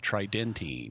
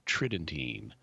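First: The stress is on the second syllable. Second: The stress is on the first syllable. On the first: "you were stressing the second syllable" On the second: "I normally stress the first syllable"

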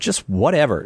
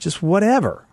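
First: The phrase is said plainly, without extra emphasis. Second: The phrase is said with extra emphasis. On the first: "Am I saying that right" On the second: "should I give more emphasis on it?"

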